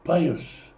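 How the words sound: It has an 'ay' vowel and ends in 's'. "когда мы говорим на ашкеназских диалектах"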